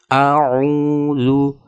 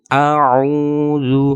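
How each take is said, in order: The two takes are said the same way.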